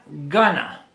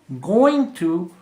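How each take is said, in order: First: The words are blended into one reduced word. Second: Both words are said fully and separately.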